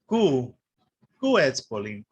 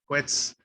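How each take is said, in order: First: The start is a separate, emphasized 'koo' sound. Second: The start is a smooth, quick 'kw' sound. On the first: The speaker calls it wrong. "they might say Ku Quetzalcoatl" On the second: The speaker calls it right. "So it's K W"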